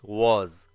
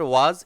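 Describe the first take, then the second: First: The vowel is said with slightly rounded lips. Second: The vowel is said with unrounded, open lips. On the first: The speaker calls it right. "Lips जो है वह हल्का round shape लेगा" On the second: The speaker calls it wrong. "It is not वाज"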